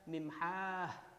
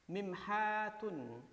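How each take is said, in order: First: The word ends with a short '-ah' ending. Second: The word ends with a full '-atun' ending. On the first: The word is read at a stop. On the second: The word is read in full, without a stop.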